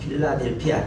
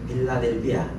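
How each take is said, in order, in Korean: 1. 이름은 거센소리를 강하게 내어 발음합니다. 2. 이름은 예사소리로, 거센소리 없이 발음합니다.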